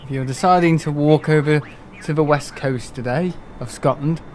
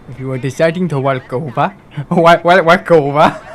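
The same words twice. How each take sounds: First: Said in the usual way. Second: Badly faked African accent; mock African accent. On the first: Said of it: "doing the weather or something". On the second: Mimicking a weather forecast for a joke, mock African accent. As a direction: put on a mock African accent, breaking into laughter. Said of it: "It doesn't sound anything like it".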